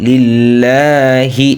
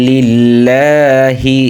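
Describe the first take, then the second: No difference in how they are said.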